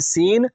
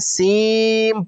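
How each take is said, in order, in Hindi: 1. शब्द एक साफ़ n ध्वनि से खत्म होता है। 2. शब्द m ध्वनि से खत्म होता है। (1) "अब इसको हम सीन नहीं पढ़ेंगे" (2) "बल्कि सीम पढ़ेंगे"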